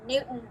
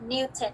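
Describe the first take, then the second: First: The middle T sound is dropped. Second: The middle T sound is clearly pronounced. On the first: This is how people casually say it in America. "they just cut the T part. They don't speak like the T. They say Newton" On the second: This is how it is taught in Vietnam. "instead of Newton"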